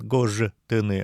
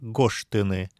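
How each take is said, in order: First: The consonant before t is a voiced zh. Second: The consonant before t is a voiceless sh. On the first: The speaker calls it wrong. "Не говорят" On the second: The speaker calls it right. "Здесь «ж» оглушается, превращается в «ш» перед «т»"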